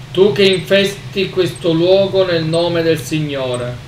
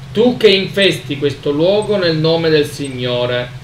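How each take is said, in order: The two takes are said the same way.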